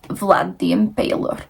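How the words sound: It is said in a put-on foreign accent.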